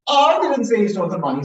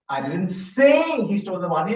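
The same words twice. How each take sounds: First: The word "I" carries the main stress. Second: The word "say" carries the main stress. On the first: Someone else said it. "Someone else said it, not me" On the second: It was only suggested, not said. "I only suggested"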